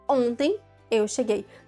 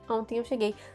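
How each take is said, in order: First: There is a pause after the first word. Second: It flows without a pause after the first word. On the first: "você não precisa falar" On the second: "você pode falar"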